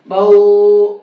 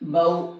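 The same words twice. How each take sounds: First: The vowel is stretched out long. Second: The vowel is said short. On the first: The speaker calls it wrong. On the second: The speaker calls it right.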